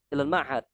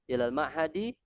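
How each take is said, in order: First: The last word ends on a bare consonant. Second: The last word ends with an added vowel. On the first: This is how native Arabs say it. "mensukunkan huruf terakhir" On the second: This is how learners like us say it. "kalau kita berikan harokat"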